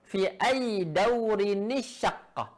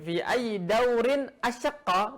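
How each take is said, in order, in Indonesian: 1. Bunyi n kecil menyambung kedua kata. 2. Kata-katanya terpisah, tanpa n penyambung. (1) "Ada nun kecil ya" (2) "dua nafas, ini berat bagi mereka"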